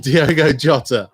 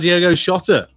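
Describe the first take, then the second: First: The surname begins with a J sound. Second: The surname begins with an SH sound.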